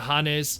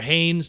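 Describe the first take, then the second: First: The name is said with a Japanese pronunciation. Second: The name is said with an American pronunciation. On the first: "Japanese pronunciation" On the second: "American pronunciation"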